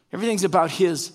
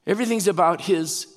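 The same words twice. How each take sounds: The two takes are said the same way.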